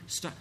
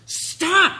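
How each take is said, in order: First: Said in the usual way. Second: Sudden high, loud shout; fed-up full-volume yell; parent yelling. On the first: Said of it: "until I start yelling". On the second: Acted. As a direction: explode at a child who won't listen. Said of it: "skip to the yelling".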